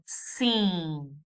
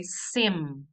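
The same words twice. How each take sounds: First: "sim" drawn out with a nasal vowel, no closed M; open-lipped nasal. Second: "sim" ending on a firm M, lips shut; closed-lip M. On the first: Teacher showing what we say, long nasal "sim" without M. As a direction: hold "sim" in the nose and leave the lips open. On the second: Teacher showing what we do not say, "sim" with a closed M. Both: Shown as a demonstration. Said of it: "We don't close the lips".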